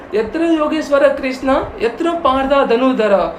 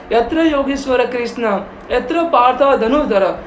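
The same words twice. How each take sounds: The two takes are said the same way.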